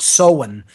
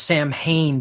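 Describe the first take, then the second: First: Samhain said "SOW-in", with no M sound; Samhain as two syllables, "SOW-un"; Gaelic pronunciation. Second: Samhain said as spelled, "sam-HAYN"; mispronounced Samhain. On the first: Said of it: "not pronounced Samhain, but Samhain". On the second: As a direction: read Samhain phonetically, SAM plus HAIN. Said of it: "not pronounced Samhain". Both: Shown as a demonstration.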